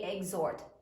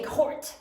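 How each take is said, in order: First: The h is silent in the word. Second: The h is clearly sounded in the word. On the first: The speaker calls it right. "We do not hear the H when we say exhort" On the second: The speaker calls it wrong. "We don't say exhort"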